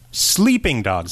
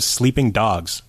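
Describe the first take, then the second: First: The stress is on the word Sleeping. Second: The stress is on the word Dogs. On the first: The speaker calls it wrong. "puts the emphasis on sleeping" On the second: The speaker calls it right. "instead of"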